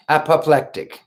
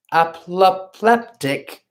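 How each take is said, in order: First: Said in the usual way. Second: Apoplectic sounded out slowly as /æpləplɛptɪk/, with p for k; slow syllable-by-syllable attempt at apoplectic; careful first try. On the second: Shown as a demonstration. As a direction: apoplectic spelled out haltingly, second k said as p.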